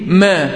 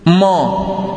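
First: ما thin and fronted, "mæ"; light mim. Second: ما thick and backed, "maw"; wrong heavy mim. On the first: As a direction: demonstrate ما without heaviness. (ما مرققة) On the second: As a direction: show the faulty heavy ما. (ما مفخمة خطأً) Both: Shown as a demonstration. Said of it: "وليست".

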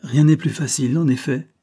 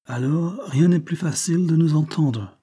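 First: Put-on higher, louder repeat with no accent; lightly mocking echo. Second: Put-on higher English-accented French, self-assured; unruffled British accent. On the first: Young woman repeating the Englishman's words, lightly mocking. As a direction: echo him with a touch of banter. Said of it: "au ton gouailleur de Soleil Couchant". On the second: Englishman ignoring her mockery, assured British accent. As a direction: settle it as an unruffled Briton. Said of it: "dit tranquillement l'anglais". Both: A narrator's reading.

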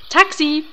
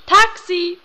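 First: Raised hailing call. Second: High, loud taxi hail; second, louder shout for a cab; louder call. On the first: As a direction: hail the cab across the street. Hailing a taxi. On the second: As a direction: yell it so the driver hears. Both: Acted.

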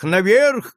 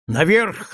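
First: Higher, louder repeated shout. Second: First call, rising and urgent; shout. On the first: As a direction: push the second call harder. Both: A narrator's reading. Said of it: "кричал Кольборн".

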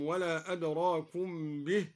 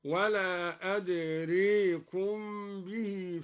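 First: Said in the usual way. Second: أدريكم with the long a tilted to "ee/ay", drawn out slowly; imala. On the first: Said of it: "أمال الدوري". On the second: Shown as a demonstration. Teacher shows al-Duri's reading, أدريكم with slow imala. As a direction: tilt the alif of أدريكم towards e. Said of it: "لفظ أدرى هكذا".

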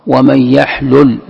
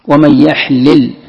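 First: Slow recitation, "يحلل" as yaḥlul; a u after the first ل in "يحلل"; damma reading. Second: Slow recitation, "يحلل" as yaḥlil; an i after the first ل in "يحلل"; kasra reading. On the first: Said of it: "أو قراءة الضم". ("يحلل" بضم اللام) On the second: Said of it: "هذه القراءة قراءة الكسر". ("يحلل" بكسر اللام) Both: Shown as a demonstration.

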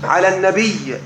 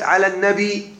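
First: على النبي with the final ي fully vowelled, the original form; original full vowel. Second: على النبي with the final ي silenced for the metre; sukun for the metre. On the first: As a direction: say النبي ending in a full kasra on the ي. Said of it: "الأصل على النبي". (النبي بحركة الياء على الأصل) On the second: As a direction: say النبي ending on a silent ي, as the verse needs. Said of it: "سكنها للوزن". (النبي بياء ساكنة للوزن) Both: Shown as a demonstration.

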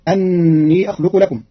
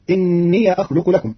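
First: أني with a-vowel hamza; Hafs reading. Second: إني with i-vowel hamza and open ya; Qalun reading. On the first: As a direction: open أني with anni. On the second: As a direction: start إني with inniya. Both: Shown as a demonstration. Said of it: "بكسر الهمزة مع فتح ياء الإضافة".

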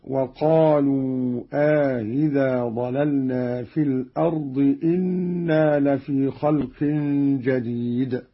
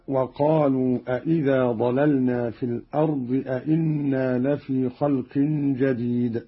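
First: أإذا as long aa into a softened hamza, إنا with one hamza; slow recitation, easing the second hamza of أإذا and saying إنا as inna; Qalun's single second question. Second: Said in the usual way. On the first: Shown as a demonstration. Teacher demonstrates Qalun's question in the first word only, measured recitation. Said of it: "بالاستفهام في الأول". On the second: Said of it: "استفهام مكرر".

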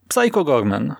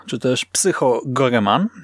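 First: "Gorman" wymówione krótko, bez "e", dwie sylaby: GOR-man; "Psycho Gorman" czytane bez "e" w środku, jak Gorman; wymowa Gorman. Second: "Goreman" z wyraźnym "e", trzy sylaby: GO-re-man; "Psycho Goreman" czytane z "e" w środku, trzy sylaby; wymowa Goreman. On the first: ("Gorman" dwusylabowo, bez samogłoski "e") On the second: ("Goreman" trzysylabowo, z samogłoską "e" po "r") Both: Shown as a demonstration.

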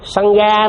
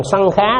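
First: "sân ga" with an unaspirated g in "ga"; pronunciation demo. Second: "sân khá" with an aspirated kh and rising "khá"; contrasting pronunciation. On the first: Teacher explains the word for attachment, demonstrating "ga" in "sân ga". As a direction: say "sân ga" with a plain hard g, no puff of air. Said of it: "Mà nếu phát âm chữ". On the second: Teacher contrasts the word for sangha, demonstrating "khá" in "sân khá". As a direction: say "sân khá" slowly, kh instead of g. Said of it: "Hai cái nó khác nhau". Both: Shown as a demonstration.

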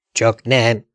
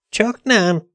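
First: Said in the usual way. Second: Mocking echo. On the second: Fante echoes Dante's question, high and mocking.

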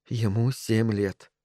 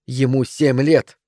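First: Slow, soft self-reminder; said to herself. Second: Slow, emphatic angry cry; sharp cry. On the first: Mother calming herself outside son's room, to herself. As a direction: tell yourself quietly, slowly. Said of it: "сказала она себе". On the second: Wife defending her son to husband, sharp cry. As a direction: throw it at him sharply. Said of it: "резко закричала она". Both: A narrator's reading.

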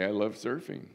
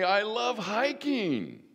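First: Said in the usual way. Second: Much higher, slow put-on voice for I love hiking; playful congregant voice. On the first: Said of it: "I can say". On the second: Voicing hikers in the congregation, high and playful. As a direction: pipe it up high like an eager member. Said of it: "Some of you can say".

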